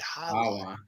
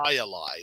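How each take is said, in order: First: The name begins with an H sound. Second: The name begins with a J sound. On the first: The speaker calls it right. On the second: The speaker calls it wrong.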